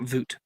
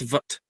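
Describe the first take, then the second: First: The syllable has a long vowel, like 'boot'. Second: The syllable has a short vowel, like 'but'. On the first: The speaker calls it wrong. "Not voot" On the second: The speaker calls it right. "Sorry, it's vut"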